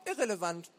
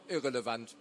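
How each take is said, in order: First: Put-on high, curt-worded boy's brush-off; high young know-it-all waving the question away; dismissive boy. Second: Said in the usual way. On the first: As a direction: say IRRELEVANT as a dismissive kid, pitched up.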